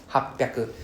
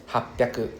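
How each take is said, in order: Both takes have the same delivery.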